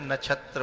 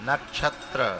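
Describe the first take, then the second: First: The middle cluster is said plainly, without doubling. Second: The middle cluster is doubled with a jerk. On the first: The speaker calls it wrong. "इसमें जो नक्षत्र बोल रहे हैं, नक्षत्र, वो गलत है" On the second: The speaker calls it right. "उसको झटके से बोला जाता है ... जयपाल सही बोल रहे हैं"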